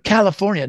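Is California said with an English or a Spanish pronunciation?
English. It is said with an English pronunciation. The speaker calls it wrong.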